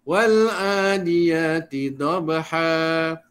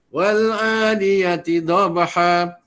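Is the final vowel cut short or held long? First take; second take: held long; cut short. First: The final vowel is held for two beats. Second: The final vowel is cut short, sounding abrupt. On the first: The speaker calls it right. "Nampakkan harakat dia" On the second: The speaker calls it wrong. "dia bunyi macam marah ya ... begitu. Tak mau"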